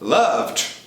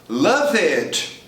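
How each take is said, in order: First: The ending adds no extra syllable. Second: The ending is said as an extra syllable. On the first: The speaker calls it right. "Second case" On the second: The speaker calls it wrong. "The tendency for Brazilians is to pronounce ed in the same way always"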